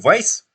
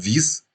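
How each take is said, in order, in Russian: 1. Название произносится с гласным 'ai'. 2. Название произносится с гласным 'ee'. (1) "Именно так он называется?" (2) "А я-то все время называл Виз"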